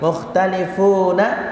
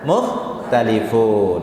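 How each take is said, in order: First: The word ends with a final vowel. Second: The final vowel is dropped, ending on a consonant. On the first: The reading continues without stopping. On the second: The reader stops at this word.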